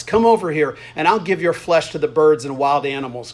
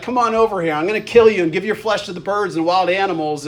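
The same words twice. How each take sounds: First: Narrated yell, barely raised; restrained yell. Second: Lightly acted taunting threat, pitched up at the start; trash talk. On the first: A narrator's reading. Reading Goliath's threat to David from scripture, mildly yelled. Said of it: "Goliath yelled". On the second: Goliath calling David over for a fight, trash-talking. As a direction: goad the opponent like a mild trash-talker. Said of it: "you notice the trash talking here".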